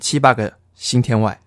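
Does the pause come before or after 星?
before. The pause comes after 个, before 星. The imagery of the line is lost. The speaker calls it wrong. "我常常都念成七八个星天外，这样就没有它的那个意境了"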